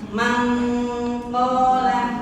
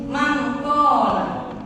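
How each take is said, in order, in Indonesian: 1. Diucapkan lambat, dengan bunyi sengau panjang. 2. Diucapkan cepat, dengan bunyi sengau pendek. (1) "Tapi harus pelan-pelan" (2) "tidak akan sempurna ketika teman-teman membacanya"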